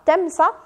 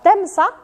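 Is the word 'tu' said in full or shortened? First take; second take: shortened; shortened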